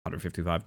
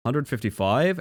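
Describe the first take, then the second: First: Said in the usual way. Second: Rising, doubtful hundred fifty-five; surprised question. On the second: Real, not acted. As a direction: ask it back in disbelief. Reading a race time, unsure.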